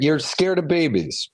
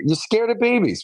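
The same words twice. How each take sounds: First: Said in the usual way. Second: "you're scared of babies" with "babies" lifted high, then falling; mock amazement at a shy child, pitched up; higher, teasing disbelief. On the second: Mother repeats to daughter, higher.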